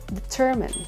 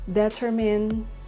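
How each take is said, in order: First: The stress is on the second syllable. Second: The stress is not on the second syllable. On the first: The speaker calls it right. "So the stress is on the second syllable" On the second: The speaker calls it wrong. "You might say determine"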